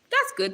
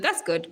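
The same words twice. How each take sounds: First: A high squeaky That's good; high squeak. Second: A lower, deeper That's good. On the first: Streamer plays with That's good, squeaking it high. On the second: Streamer plays with That's good, saying it low. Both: Pretend. Repeats phrase in varied voices.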